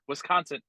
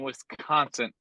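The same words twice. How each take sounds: First: The word is said without a T sound. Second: The word is said with a T sound.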